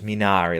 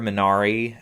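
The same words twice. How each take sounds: First: The word is said the way Italian sounds. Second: The word is said in a non-Italian way. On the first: The speaker calls it right. "like in Italian" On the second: The speaker calls it wrong. "I'm mispronouncing that"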